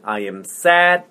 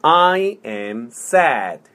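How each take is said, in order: First: Said in the usual way. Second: Slow, word by word; slow model. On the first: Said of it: "천천히". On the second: Shown as a demonstration. Teacher modelling "I am sad" for repetition, slowly. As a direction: space out each word for a learner. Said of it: "천천히. 자, 해볼게요".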